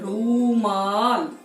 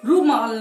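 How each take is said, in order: First: The first vowel is said long. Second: The first vowel is said short. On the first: The speaker calls it right. "बड़ा ऊ" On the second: The speaker calls it wrong. "नहीं बोलेंगे"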